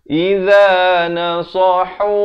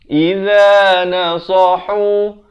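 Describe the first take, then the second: No difference in how they are said.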